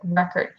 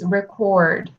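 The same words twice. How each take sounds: First: The stress is on the first syllable. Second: The stress is on the second syllable. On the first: It is the noun. "as a noun" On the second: It is the verb. "if it's a verb"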